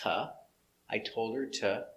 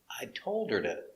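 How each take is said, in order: First: The word 'to' begins with a clear T sound. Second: The word 'to' begins with a soft D sound. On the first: "you can pronounce it t" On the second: "with a D sound, d"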